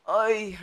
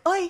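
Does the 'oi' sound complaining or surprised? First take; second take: complaining; surprised. First: It is said in a complaining, moaning tone. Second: It is said in a startled, surprised tone. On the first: The speaker is grumbling about something tiresome. "la plainte" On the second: The speaker is caught off guard by something. "La surprise"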